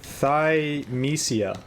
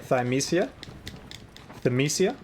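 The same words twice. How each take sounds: First: "Thymesia" drawn out slowly, THIGH-mee-see-uh, falling; trying a name. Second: "Thymesia?" asked with a rising tune, first THIGH- then thuh-MEE-; unsure pronunciation. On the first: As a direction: sound out "Thymesia" slowly and carefully. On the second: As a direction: test "Thymesia" questioningly. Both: Shown as a demonstration. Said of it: "Is that how you say it?".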